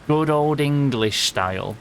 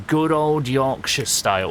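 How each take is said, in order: First: Said in the usual way. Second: Yorkshire. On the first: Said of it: "I should say good old Yorkshire style". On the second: Real, not acted. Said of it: "I just did a Yorkshire word on stream".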